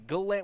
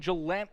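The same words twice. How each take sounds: First: It begins with a hard G sound. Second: It begins with a soft J sound.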